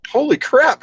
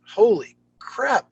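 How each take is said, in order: First: High, amazed exclamation; retold surprise at the news, high-pitched; stunned surprise. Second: Amazed aside. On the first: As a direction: gasp it out in disbelief. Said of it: "And I went". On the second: Retold or imitated. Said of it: "but I'm like".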